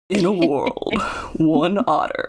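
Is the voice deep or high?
deep. The voice is pitched much lower and deeper. The speaker calls it right.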